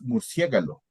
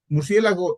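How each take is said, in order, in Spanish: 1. La palabra termina con los sonidos 'galo'. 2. La palabra termina con los sonidos 'lago'. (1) "la palabra original con la etimología original es murciégalo" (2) "Murciélago está mal dicho"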